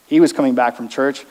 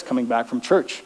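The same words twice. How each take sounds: First: Was leaned on, tune rising; stress on was. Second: Said in the usual way. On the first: Shown as a demonstration. Repeating it to the congregation, stressing was. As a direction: press on was as if it is hard to believe.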